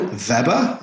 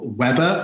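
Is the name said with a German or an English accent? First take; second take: German; English. First: The name is said with a German accent. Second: The name is said with an English accent.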